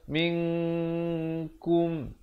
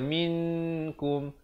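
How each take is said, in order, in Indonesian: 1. N tersembunyi dalam bunyi sengau yang ditahan. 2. N dibaca jelas dan penuh. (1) "ikhfa hakiki dua harakat" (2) "itu jadi izhar"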